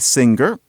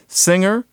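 First: The middle has ng followed by a hard g. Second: The middle has only the ng sound, no g. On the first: Only a minority of speakers say it this way. "there are some people who say singer, but most people don't" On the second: Most speakers say it this way. "for those of us who say singer and finger, they don't rhyme"

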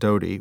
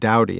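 First: The first vowel rhymes with go. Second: The first vowel rhymes with cow. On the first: The speaker calls it wrong. "not Dodie" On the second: The speaker calls it right. "it's apparently pronounced Dowdy"

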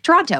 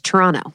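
First: The second T is clearly pronounced. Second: The second T is dropped entirely. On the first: The speaker calls it wrong. "we used to say we should be like Toronto" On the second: The speaker calls it right. "it's Toronto"

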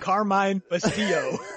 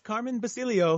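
First: The surname has an st sound. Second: The surname has a plain s, no t. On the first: The speaker calls it wrong. "not Carmine Bastillo" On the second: The speaker calls it right. "It's Carmen Basilio"

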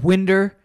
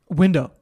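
First: The word ends in an 'er' sound. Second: The word ends in an 'oh' sound. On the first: This is a family member's dialect pronunciation. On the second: This is the ordinary pronunciation.

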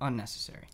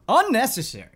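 First: It is said in a flat, plain way. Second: It is said loudly, with emphatic force.

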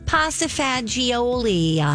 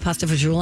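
First: It is said in an exaggerated, affected way. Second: It is said in a plain, everyday way. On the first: This sounds pretentious. The speaker calls it wrong. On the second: This is the normal way to say it. The speaker calls it right.

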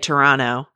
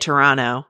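First: The second T is dropped. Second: The same.

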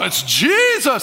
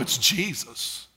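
First: It is said with admiration and awe. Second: It is said dismissively, with familiarity.

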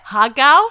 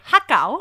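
First: It is said with an Australian accent. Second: It is said with a Thai accent. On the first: "I actually Australianized it" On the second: "If it was in a Thai accent, it would be ha gao"

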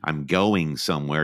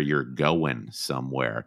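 First: The word ends with a full -ing sound. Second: The word ends in -in without the g. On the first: "instead of saying" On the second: "if you're from the South, you drop your G's"

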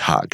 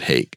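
First: The word is said with an 'ah' vowel. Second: The word is said with an 'ay' vowel. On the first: This is the Hebrew name, which makes the pun. The speaker calls it right. "in Hebrew it's Hag" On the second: This is the English name. The speaker calls it wrong. "not Hague"

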